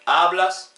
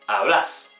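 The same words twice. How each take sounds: First: The stress is on the first syllable. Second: The stress is on the last syllable. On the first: This is the tú form. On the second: This is the vos form.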